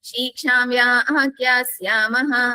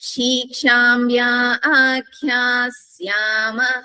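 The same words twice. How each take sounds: First: The phrase is recited quickly. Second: The phrase is recited slowly.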